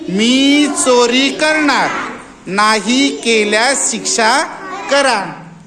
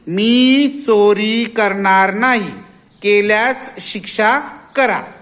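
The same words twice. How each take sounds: First: The pause comes after the word करणार. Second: The pause comes after the word नाही.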